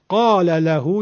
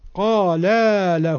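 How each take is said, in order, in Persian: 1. مصوت پایانی کلمه اول کوتاه است. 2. مصوت پایانی کلمه اول بلند است. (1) "یعنی یک نفر به او گفت" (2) "یعنی دو نفر به او گفتن"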